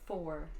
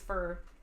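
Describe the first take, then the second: First: The word is said with a full 'or' vowel. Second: The word is said with a reduced vowel, like 'fur'. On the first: The speaker calls it right. "instead of for" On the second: The speaker calls it wrong. "I always say fur, like a fur mantle or fur coat"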